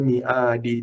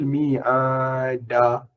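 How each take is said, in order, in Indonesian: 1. Kata ini berakhir dengan vokal 'i'. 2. Kata ini berakhir dengan vokal 'a'. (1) "Bukan mi'adi" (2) "Patutnya tukhliful mi'ada"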